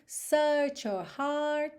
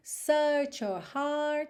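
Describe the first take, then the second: First: The R sounds are light, halfway between. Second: The same.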